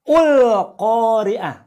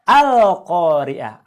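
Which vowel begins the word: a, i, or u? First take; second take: u; a. First: The word begins with a u vowel. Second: The word begins with an a vowel. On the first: The speaker calls it wrong. "atau ul-Qari'ah" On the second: The speaker calls it right. "Tapi bacalah Al-Qari'ah"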